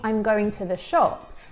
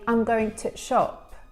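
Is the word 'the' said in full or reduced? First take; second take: full; reduced. First: The word 'the' is said in full. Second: The word 'the' is linked and reduced. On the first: "instead of saying" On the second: "they'll say"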